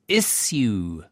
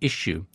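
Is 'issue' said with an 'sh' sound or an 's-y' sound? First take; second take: s-y; sh. First: The middle sounds like 's' followed by 'y'. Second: The middle sounds like 'sh', like a sneeze. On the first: This is the pronunciation taught at school. "It's issue" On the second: American colleagues expect this pronunciation. "and I have to say issue"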